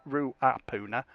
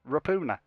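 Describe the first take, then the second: First: The name begins with the sounds 'Rua'. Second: The name begins with the sounds 'Ra'. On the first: The speaker calls it wrong. "It's not Ruapuna" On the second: The speaker calls it right. "It's Rapuna"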